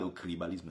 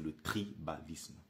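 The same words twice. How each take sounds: First: The word is pronounced sloppily, with distorted sounds. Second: The word is pronounced carefully, with clear sounds. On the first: The speaker calls it wrong. "Ce n'est pas le tribalisme" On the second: The speaker calls it right. "c'est le tribalisme"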